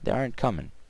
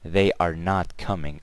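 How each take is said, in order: First: 'Are not' is run together as 'aren't'. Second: 'Are not' is said as two full words. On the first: The speaker calls it right. "I say" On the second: The speaker calls it wrong. "I don't really say"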